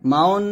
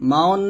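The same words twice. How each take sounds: Both takes have the same delivery.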